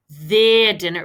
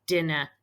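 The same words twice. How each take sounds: First: Their stressed in Their dinner. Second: Said in the usual way. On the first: Shown as a demonstration. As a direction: lean on the word Their. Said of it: "It belongs to them".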